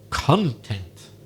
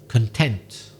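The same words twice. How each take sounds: First: The stress is on the first syllable. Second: The stress is on the second syllable. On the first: It means what is contained inside something. "I stress the first syllable" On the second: It means happy or satisfied. "instead of the second"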